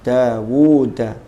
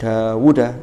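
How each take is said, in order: First: The middle vowel is held long. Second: The middle vowel is cut short. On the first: The speaker calls it right. "dibaca panjang" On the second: The speaker calls it wrong. "jangan dibaca pendek"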